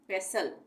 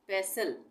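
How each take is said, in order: The two takes are said the same way.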